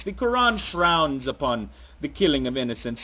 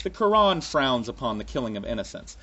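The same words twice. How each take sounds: First: Put-on muddled accent, half Russian, half Transylvanian vampire. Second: Said in the usual way. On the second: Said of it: "you notice they always say innocents".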